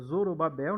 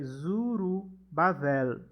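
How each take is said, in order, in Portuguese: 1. O nome termina com som de 'b': babel. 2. O nome termina com som de 'v': bavel. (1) "Em português a gente é, pronuncia Zorobabel" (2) "Em hebraico é Zurubavel"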